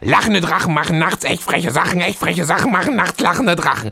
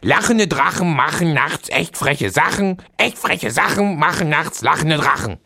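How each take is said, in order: First: It is said noticeably faster. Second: It is said at a moderate pace.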